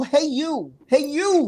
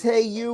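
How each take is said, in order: First: High, swooping "Hey You"; catchphrase call. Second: Said in the usual way. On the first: Shown as a demonstration. Host corrects how he read the greeting, high catchphrase call.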